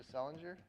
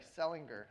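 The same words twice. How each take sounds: First: Selinger with a soft g, like "Sellinjer"; Selinger said as SELL-in-jer; mispronounced name. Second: Selinger with a hard g, like "Selling-ger"; Selinger said as SELL-ing-gur; corrected pronunciation. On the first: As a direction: say Selinger with a j sound in the middle. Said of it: "I always said her name wrong". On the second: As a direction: say Selinger with a g as in "finger". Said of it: "She pronounces it Selinger". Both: Real, not acted.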